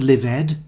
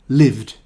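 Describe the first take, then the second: First: The ending is said as an extra syllable. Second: The ending is a single d sound. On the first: The speaker calls it wrong. "not lived" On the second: The speaker calls it right. "the ending is pronounced d"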